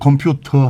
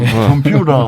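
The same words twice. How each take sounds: First: It is said in a standard British accent. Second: It is said in an American accent. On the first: "영국 사람은 컴퓨터 하거든요" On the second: "미국 사람들은 컴퓨터 하지만"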